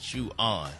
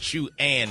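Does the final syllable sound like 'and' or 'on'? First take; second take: on; and. First: The final syllable sounds like 'on'. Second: The final syllable sounds like 'and'. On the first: The speaker calls it wrong. "instead of chew on" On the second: The speaker calls it right. "it's chew and"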